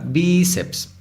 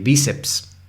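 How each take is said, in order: First: "bíceps" with BÍ drawn out slowly; stress on first syllable. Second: Said in the usual way. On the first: Shown as a demonstration. Teacher showing the tonic syllable, first one lengthened. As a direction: stretch and stress BÍ in "bíceps", then ceps. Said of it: "La sílaba tónica es bi".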